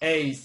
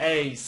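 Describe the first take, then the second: The two takes are said the same way.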